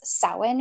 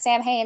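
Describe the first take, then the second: First: The word is said differently from its spelling. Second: The word is said the way it is spelled. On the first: This is the form some purists insist on. "it's Samhain, you're saying it wrong" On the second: The speaker learned the word from reading it. "that just means that that's how you read it"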